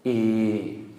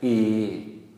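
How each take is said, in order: First: The vowel is long with a mid tone. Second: The same.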